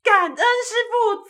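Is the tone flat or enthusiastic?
enthusiastic. It is said with enthusiastic energy.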